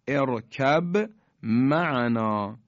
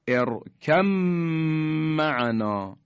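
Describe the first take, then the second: First: A b sound is heard before the m. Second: The b merges into the m and disappears. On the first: "با ساکنه به حرف میم رسیده" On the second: "یعنی ما دیگه حرف با رو تلفظ نمی کنیم"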